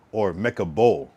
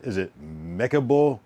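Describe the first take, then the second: First: "Bull" punched louder at the end; stress on Bull. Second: "Mecca" leaned on, slowed down; stress on Mecca. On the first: Asking friends which word takes the stress, Bull loud. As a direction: hit "Bull" hard and let it fall. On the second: Asking friends which word takes the stress, Mecca first. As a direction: push the weight onto "Mecca", slowly. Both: Shown as a demonstration. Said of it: "emphasis on Mecca or".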